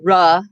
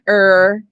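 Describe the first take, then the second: First: A vowel sound comes after the r. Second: A vowel sound comes before the r. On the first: "and not ra" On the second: "Not er"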